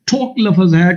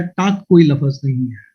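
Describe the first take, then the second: First: टॉक hit firmly; stress on टॉक. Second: कोई hit with a fall; stress on कोई, falling. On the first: Australian correcting how Pakistanis say talk, stressed. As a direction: punch टॉक. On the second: Australian correcting how Pakistanis say talk, falling stress. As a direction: land on कोई. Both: Retold or imitated. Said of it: "उसने कहा".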